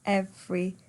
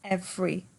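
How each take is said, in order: First: The word is said with two syllables. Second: The same.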